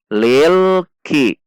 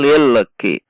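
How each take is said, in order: First: The L is held steadily without any bounce. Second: The L is released with an audible bounce. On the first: The speaker calls it right. "Tidak ada pantulan, hati-hati. Tekan di titik makhraj lam" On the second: The speaker calls it wrong. "Kalau dilepas dia akan memantul"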